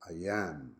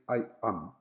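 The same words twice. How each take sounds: First: The words are linked by an added glide sound. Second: The two words are said separately, not linked. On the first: The speaker calls it right. "adding an extra E sound to join the two words together" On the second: The speaker calls it wrong. "I don't say I am"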